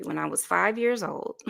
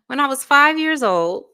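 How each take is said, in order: First: Said in the usual way. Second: Repeated higher and louder through a laugh. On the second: Real, not acted. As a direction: say it again, laughing at the memory. Retells a childhood story, then repeats.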